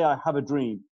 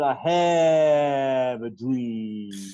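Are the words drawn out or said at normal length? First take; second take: normal; drawn out. First: The words are said at normal length. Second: The words are stretched out and drawn long.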